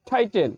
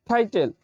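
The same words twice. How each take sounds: The two takes are said the same way.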